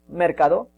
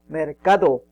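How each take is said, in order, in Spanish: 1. La tónica está en la primera sílaba. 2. La tónica está en la segunda sílaba.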